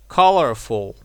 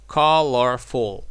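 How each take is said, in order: First: Said in the usual way. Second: "colorful" said slowly in three syllables. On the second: Shown as a demonstration. Teacher showing learners the three syllables, "colorful" slowly syllable by syllable. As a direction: stretch out "colorful", one syllable at a time. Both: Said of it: "This is three syllables".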